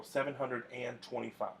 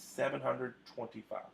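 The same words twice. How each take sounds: First: "seven hundred and twenty-five" said with an "and" in the middle, as the wrong example. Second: "seven hundred twenty-five" said with no "and" between hundred and twenty-five; right way, no and. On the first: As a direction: model the mistake, keeping "and" between hundred and twenty-five. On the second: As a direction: give the correct reading straight after the wrong one. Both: Shown as a demonstration. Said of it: "you can't use and there".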